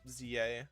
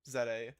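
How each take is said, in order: First: The letter Z is said as 'zee'. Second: The letter Z is said as 'zed'. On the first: "sometimes I say it regularly" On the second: "I just Im immediately corrected it to Z A"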